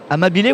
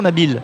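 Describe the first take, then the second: First: The final vowel is sounded clearly, like 'ay'. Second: The final vowel is weak or silent.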